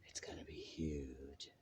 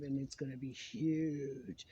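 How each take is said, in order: First: Hushed, breathy secret whisper. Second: Said in the usual way. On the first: Acted. Whispered repeat of previous line.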